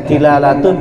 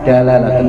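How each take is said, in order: First: The first vowel is an i sound. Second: The first vowel is an a sound. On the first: "Wahia ini bisa dibaca dilalatun" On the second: "bisa dibaca juga dala dalalatun"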